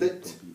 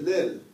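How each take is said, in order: First: The syllable ends with a t sound. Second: The syllable ends with an l sound. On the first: The speaker calls it right. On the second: The speaker calls it wrong. "We don't say lil"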